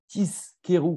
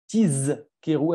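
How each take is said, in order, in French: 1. La consonne du milieu est un son S sourd. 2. La consonne du milieu est un son Z sonore. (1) "il y a des gens, des fois, qui vont dire Tiskeru" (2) "Il faut bien dire Tizkeru avec un Zaïn"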